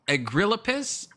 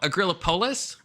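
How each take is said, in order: First: The stress falls on the first syllable. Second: The stress falls on the final part, polis. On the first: The speaker calls it wrong. "Is the emphasis on the first syllable, like agrillapis?" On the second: The speaker calls it right. "Is the emphasis on the polis though?"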